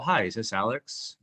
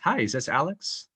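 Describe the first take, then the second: First: It sounds awkward and unsure, with hesitant filler. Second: It sounds friendly and direct, without hesitation. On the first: The caller doesn't know what to say. The speaker calls it wrong. "I wasn't weird. I wasn't like" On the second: The caller is being intentional. The speaker calls it right. "I was friendly"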